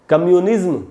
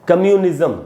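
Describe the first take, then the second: Both takes have the same delivery.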